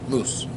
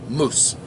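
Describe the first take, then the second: Both takes have the same delivery.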